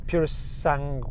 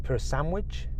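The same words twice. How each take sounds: First: "Pura Sangue." said softly and settled, ending in a firm fall; right version. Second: "Pura Sandwich?" said softly as a questioning wrong guess, Sandwich for Sangue. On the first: Host settling on the Ferrari's name, soft but sure. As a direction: land on "Pura Sangue." as the answer. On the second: Host guessing the Ferrari's name, wrong, soft and unsure. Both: Shown as a demonstration. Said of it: "how do you say it?".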